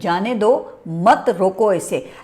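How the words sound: The pause comes just before the word mat. Let it go, do not stop it. "इसमें अगर आप मत से पहले नुक्ता लगाएं"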